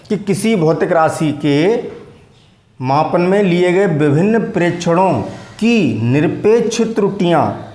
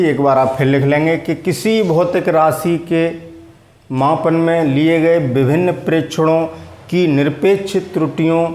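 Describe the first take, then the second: First: Slow, deliberate dictation pace. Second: Said in the usual way. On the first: Shown as a demonstration. Teacher repeating the definition for students to copy, slowly. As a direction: give it word by word for their notebooks. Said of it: "फिर दोबारा बोलता हूँ". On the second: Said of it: "वो परिभाषा मैंने जल्दी में बोल दी थी".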